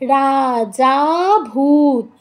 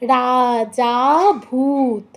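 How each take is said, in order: No difference in how they are said.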